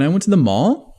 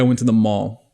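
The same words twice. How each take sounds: First: The pitch curves upward at the end. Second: The pitch stays level to the end. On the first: The speaker sounds unsure and seeks approval. The speaker calls it wrong. "Sounds like a question" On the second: The speaker is not looking for validation. The speaker calls it right. "It's even all the way across"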